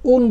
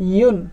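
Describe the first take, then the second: First: It begins directly with the vowel, no y sound. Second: It begins with a y glide before the vowel. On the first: The speaker calls it wrong. "অনেকে উন বলে ফেলে, উন হবে না" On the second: The speaker calls it right. "ইউ ইউ ইউ এর মতো ইউন"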